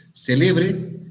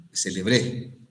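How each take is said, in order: First: Celebre said as CÉ-le-bre, high and loud; stress on first syllable. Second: Celebré with the weight on final BRÉ; stress on last syllable. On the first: Teacher showing how accent changes meaning, stress on CE in Celebre. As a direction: punch the opening CE of Celebre high. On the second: Teacher showing how accent changes meaning, stress on BRÉ in celebré. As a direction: land on the BRÉ at the end of celebré. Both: Shown as a demonstration. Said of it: "Según dónde pongas el acento".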